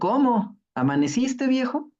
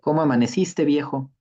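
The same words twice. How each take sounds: First: Cómo is its own question, followed by a break. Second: It is one question with no break after cómo.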